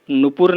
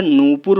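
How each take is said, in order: First: नूपुर with a short first u, 'nu-pur'; wrong short vowel. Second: नूपुर with a long drawn 'nooo'; corrected long vowel. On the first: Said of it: "नहीं होता है". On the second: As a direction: stretch the first vowel of नूपुर, noo-pur. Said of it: "होता है". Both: Shown as a demonstration.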